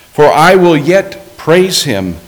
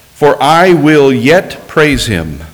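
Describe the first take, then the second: Both takes have the same delivery.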